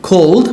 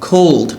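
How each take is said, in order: The two takes are said the same way.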